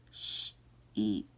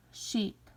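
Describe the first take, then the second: First: "sheep" stretched slowly and much lower; stretched sound-out. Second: Said in the usual way. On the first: Shown as a demonstration. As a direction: slide slowly through "sheep". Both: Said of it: "say these words".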